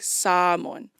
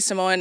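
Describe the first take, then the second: First: The name is said with the native Samoan pronunciation. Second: The name is said with an anglicized pronunciation. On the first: This is how Samoans themselves say it. "if you are Samoan, then you should say Samoan. So it's like Samoan" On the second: This is acceptable for people who are not Samoan. "So you can say Samoan. If you're not Samoan"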